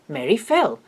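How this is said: The emphasis falls on the last word. Something happened to her, and what happened is new information. "he marks it with that special emphatic intonation as new information"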